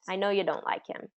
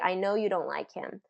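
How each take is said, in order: First: The word 'you' is reduced to 'ya'. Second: The word 'you' is said in full. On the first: "it's common to say it that way, the reduced way" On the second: "it doesn't sound abnormal to say"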